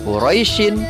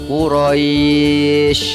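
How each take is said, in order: First: The word ends with the full vowel ending. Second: The word ends abruptly without its vowel ending. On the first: The reading continues without stopping. "yang tadinya Quraisyin" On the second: The reader stops at this word. "ketika kita berhenti membaca ... dibaca menjadi Quraisy"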